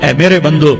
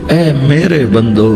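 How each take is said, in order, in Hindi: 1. यह सादे, सामान्य लहजे में कहा गया है। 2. यह गर्म, प्यार भरे लहजे में कहा गया है।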